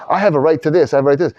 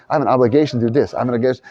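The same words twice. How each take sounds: First: A touch higher, insistent claim; mock entitlement. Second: Said in the usual way. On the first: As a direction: lightly claim your rights. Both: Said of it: "It doesn't say".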